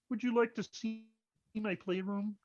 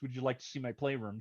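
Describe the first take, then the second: First: It is spoken in a put-on puppet character voice. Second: It is spoken in a plain, ordinary voice. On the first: The speaker calls it right. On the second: The speaker calls it wrong. "that's not how he says it"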